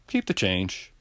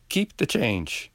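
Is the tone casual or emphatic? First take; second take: casual; emphatic. First: It is said offhand, as if nothing. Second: It is said with weight, as a big deal.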